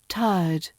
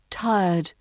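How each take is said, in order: First: The word is said in its RP form. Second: The word is said in its RP form.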